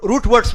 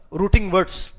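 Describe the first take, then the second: First: "روٹ words" with root as one syllable, no -ing; corrected pronunciation. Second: "روٹنگ words" with an extra -ing on the first word; mistaken pronunciation. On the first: Teacher corrects his own slip to the class, "روٹ words" without -ing. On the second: Teacher slips while naming Arabic root letters, mispronounced "روٹنگ words" with -ing. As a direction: say "روٹنگ words" as ROO-ting words. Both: Real, not acted. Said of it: "روٹنگ نہیں".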